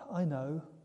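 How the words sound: It sounds sympathetic and understanding.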